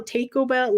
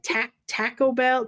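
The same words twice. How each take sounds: First: Taco said like "take-o"; imitated "Taco Bell" as "Tayco Bell"; imitated accented pronunciation. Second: Taco said with a short flat "a" as in "tack"; mimicked "Taco" with the vowel of "cat"; imitated accented pronunciation. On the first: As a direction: mimic "Taco" with a long "ay" vowel. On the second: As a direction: stretch out "Taco Bell" slowly, Taco starting like "tack". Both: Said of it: "Well, their accent, right?".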